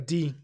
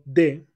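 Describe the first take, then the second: First: The word ends with a long 'ee' vowel. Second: The word ends with a short 'uh' vowel. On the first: "cambia su pronunciación a di" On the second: "de cambia su pronunciación"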